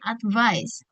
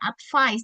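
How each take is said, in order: First: The v sound is heavy and strong. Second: The v sound is light and weak. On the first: The speaker calls it right. "tapi advice" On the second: The speaker calls it wrong. "bukan advice"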